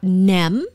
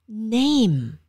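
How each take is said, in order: First: The vowel has no final 'ee' glide. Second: The vowel ends with an 'ee' glide. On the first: The speaker calls it wrong. "It's not nem" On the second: The speaker calls it right. "it's name"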